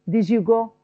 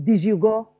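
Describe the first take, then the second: The two takes are said the same way.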